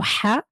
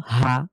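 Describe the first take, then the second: First: হা from the middle of the throat, breathy Arabic ح; হা as a throaty Arabic ح. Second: হা as a light ه from the start of the throat; হা as a light Arabic ه. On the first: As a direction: say হা as ح from mid-throat. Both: Shown as a demonstration. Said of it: "এই দুই হার মধ্যে পার্থক্য আছে না?".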